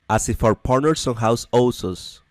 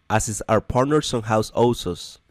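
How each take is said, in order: No difference in how they are said.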